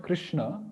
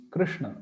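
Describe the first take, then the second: First: "Krishna" with the sh made on the palate; palatal sh. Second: "Krishna" with the tongue twisted back for the sh; retroflex sh. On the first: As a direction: say "Krishna" with an untwisted, ordinary sh. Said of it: "So it's not Krishna". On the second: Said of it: "the tongue must take a twist". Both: Shown as a demonstration.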